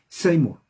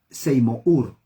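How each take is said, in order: First: The letter u is silent in the name. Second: The letter u is sounded in the name. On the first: The speaker calls it right. "La U no se pronuncia" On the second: The speaker calls it wrong. "No Seymour. No. La U no se pronuncia"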